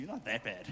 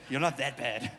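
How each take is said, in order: First: Said in the usual way. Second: With that tone. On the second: Shown as a demonstration. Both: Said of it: "You gotta say it with that tone".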